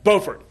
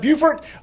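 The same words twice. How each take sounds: First: The first syllable sounds like 'bo', not 'bew'. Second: The first syllable sounds like 'bew' in beautiful. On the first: This is the North Carolina town. "Up in the North Carolina side, Beaufort" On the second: This is the South Carolina town. "it's the South Carolina side, Beaufort"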